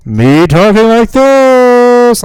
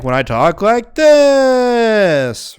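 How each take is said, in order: First: Loud, slow, drawn-out and higher; slow loud call; very loud demo. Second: Raised and drawn out, a notch below full volume; slow raised voice; moderately loud demo. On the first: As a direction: belt it out at full volume so the meter peaks. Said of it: "that should red bar". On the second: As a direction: talk up loud but steady, not yelling. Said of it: "but not, like". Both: Shown as a demonstration.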